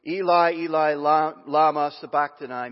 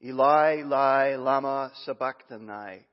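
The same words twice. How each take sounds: First: Loud, anguished call out; loud cry. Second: A louder anguished call; loud cry. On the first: Jesus crying out to God at the ninth hour, loud anguished call. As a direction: cry out to heaven in pain. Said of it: "cried out with a loud voice". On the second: Jesus calling out to God from the cross, loud anguished cry. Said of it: "called out with a loud voice". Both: Acted.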